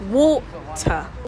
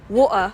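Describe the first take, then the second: First: The T in the middle is clearly pronounced. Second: The T in the middle is a glottal stop. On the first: "If you manage to pronounce the water finally, then you can pronounce everything in British pronunciation" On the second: "if you want to learn the Cockney accent, then practice the glottal T"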